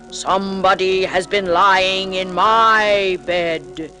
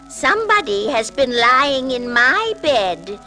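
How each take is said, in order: First: It is said in a great big voice. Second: It is said in a middle-sized voice.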